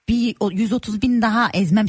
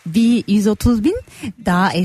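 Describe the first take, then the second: First: It is said in a hard, stern manner. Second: It is said in a sweet, soft manner. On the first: The speaker calls it right. "Çok sert olmalısın" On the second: The speaker calls it wrong. "Çok şirin söylüyorsun"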